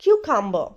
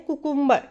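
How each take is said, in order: First: "cucumber" as KYOO-kum-buh; correct pronunciation. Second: "cucumber" as koo-KOOM-ber; wrong pronunciation. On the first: Teacher correcting learners, correct "cucumber" as KYOO-kum-buh. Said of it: "The correct pronunciation is". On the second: Teacher quoting how many people say it, wrong "cucumber" as koo-KOOM-ber. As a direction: say "cucumber" with oo in both first syllables. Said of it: "cucumber is wrong pronunciation". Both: Shown as a demonstration.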